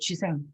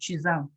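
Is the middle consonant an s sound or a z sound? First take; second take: s; z. First: The middle consonant is a voiceless s sound. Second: The middle consonant is a voiced z sound. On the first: This is the name as it appears in translation. "지생이라고 번역이 되어 있는데" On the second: This is the name as originally pronounced. "원래는 쥐장이죠. S가 중간에서 즈로 발음 나잖아요"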